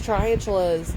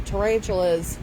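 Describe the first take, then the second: First: Tarantulas said as "traiantulas", sliding over the first syllable; stumbled mispronunciation. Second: Tarantulas said carefully as "ta-RAN-chu-las"; corrected pronunciation. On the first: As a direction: trip over the word tarantulas, mangling the middle. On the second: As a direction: fix the word tarantulas, saying it clean and deliberate. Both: Real, not acted.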